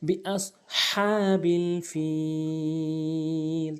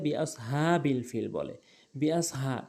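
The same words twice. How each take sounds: First: "বিআসহাবিল" with ha from mid-throat, drawn out; big ha. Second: "বিআসহাবিল" with a light breath h; small ha. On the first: Teacher modelling for learners, "বিআসহাবিল" with long vowels and throat ha. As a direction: slowly chant "বিআসহাবিল", strong pharyngeal ha. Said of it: "হা উচ্চারণ করব হলকের মাঝখান থেকে". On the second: Teacher showing most people's mistake, "বিআসহাবিল" with small ha. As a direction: say "বিআসহাবিল" with plain h, vowels unstretched. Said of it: "বড় হার জায়গায় ছোট হা এনে". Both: Shown as a demonstration.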